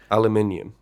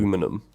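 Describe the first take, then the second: First: It is said the British way, aluminium. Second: It is said the American way, aluminum.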